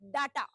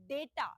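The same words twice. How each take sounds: First: The first vowel is a long 'ah' sound. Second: The first vowel is an 'ay' sound. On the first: The speaker calls it wrong. "they mispronounce it as data" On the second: The speaker calls it right. "The right pronunciation is data. ड में ए की मात्रा आएगी"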